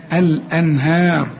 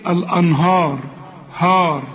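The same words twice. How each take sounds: First: الأنهار slow, with thin fronted ها like in فيها; light ha. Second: الأنهار with a dark, backed هار; wrongly heavy ha. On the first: Shown as a demonstration. Teacher showing the wanted sound, light ه in الأنهار. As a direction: keep الأنهار light, stretching the last vowel. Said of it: "أنا عاوز بقى اله دي". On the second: Retold or imitated. Teacher replaying the student's mistake, heavy هار in الأنهار. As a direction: thicken the ه and alif in الأنهار. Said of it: "قبل كده بتقول لي إيه؟".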